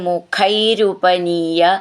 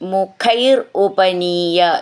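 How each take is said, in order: First: The two words are run together. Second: The two words are said separately.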